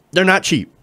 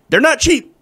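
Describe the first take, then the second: First: Said in the usual way. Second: Indignant stress on not. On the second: Shown as a demonstration. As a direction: lean hard on not in They're not cheap.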